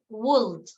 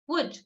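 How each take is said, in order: First: It is said unlike the word wood. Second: It is said exactly like the word wood. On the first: The speaker calls it wrong. "not would" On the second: The speaker calls it right. "We pronounce it wood"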